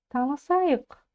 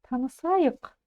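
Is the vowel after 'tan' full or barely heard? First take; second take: barely heard; barely heard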